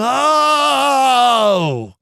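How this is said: It is said as a full, emotional outcry. A deep feeling bursts out. The speaker calls it right. "a sound of emotion"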